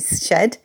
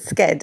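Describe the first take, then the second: First: It is said the British way, starting with sh. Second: It is said the American way, starting with sk.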